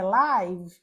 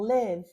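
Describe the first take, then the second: First: The vowel is a long 'eye' diphthong. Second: The vowel is a short 'i' sound. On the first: It means happening in real time. "uma palavra que é live, no caso aqui ao vivo" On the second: It means to reside somewhere. "ou live, que é morar"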